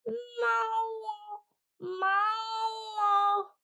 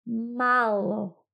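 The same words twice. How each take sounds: First: High meowing shout; cat cry. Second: Said in the usual way. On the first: Acted. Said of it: "They thought the cat had said". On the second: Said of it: "which means little in Ukrainian".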